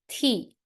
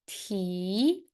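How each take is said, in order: First: The pitch falls sharply from high. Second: The pitch rises from middle to high. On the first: "And how about the last one?" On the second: "How about the second tone?"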